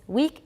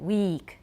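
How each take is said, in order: First: The vowel is short. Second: The vowel is long.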